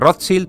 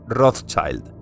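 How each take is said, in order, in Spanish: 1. El nombre se pronuncia al estilo alemán. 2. El nombre se pronuncia al estilo inglés. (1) "pronunciación original en alemán" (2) "pasa a ser pronunciada en inglés"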